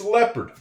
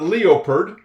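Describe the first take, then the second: First: The first vowel is the short 'eh' sound. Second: The first vowel is not the short 'eh' sound. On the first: The speaker calls it right. "E O makes the sound eh" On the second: The speaker calls it wrong. "It's not leopard"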